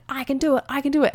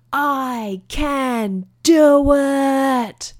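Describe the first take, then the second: First: Put-on chanted, high-pitched kid psyching himself up; chanted, repeat it lightly in a high child's voice; chanting child. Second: High, hugely drawn-out cry; triumphant battle cry. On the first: Boy starting again atop the hill, chanting child. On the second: Retold or imitated. Boy stops atop the hill before riding, triumphant battle cry. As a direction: stretch every word into a long, high call. Child's climactic drawn-out declaration.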